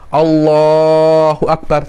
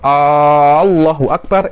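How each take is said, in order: First: The first vowel of Allah is short. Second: The first vowel of Allah is drawn out long. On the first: It states that God is the greatest. The speaker calls it right. "tidak ada masalah" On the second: It asks whether God is the greatest. The speaker calls it wrong. "itu apakah Allah maha besar? Itu pertanyaan"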